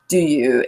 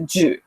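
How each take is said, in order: First: Both words are said fully and separately. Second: The words are run together into one short syllable.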